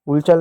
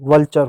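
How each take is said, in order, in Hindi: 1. पहला स्वर एक गोलाकार 'oo' ध्वनि है। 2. पहला स्वर एक छोटी 'uh' ध्वनि है। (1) "वुलचर नहीं" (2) "वल्चर हो जाएगा"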